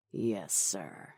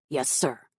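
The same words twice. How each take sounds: First: Low, soft compliance; sinister henchman. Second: Said in the usual way. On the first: Acted. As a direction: draw it out low with a cruel smile. Red accepts order with cruel smile.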